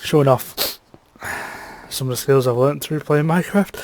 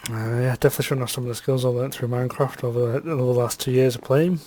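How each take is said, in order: First: Nose whistling through the words. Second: Said in the usual way. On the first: Real, not acted. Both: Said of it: "bless my nose".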